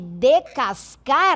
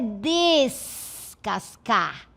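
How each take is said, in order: First: The first syllable has no s sound. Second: The first syllable has an s sound. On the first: The speaker calls it wrong. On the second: The speaker calls it right.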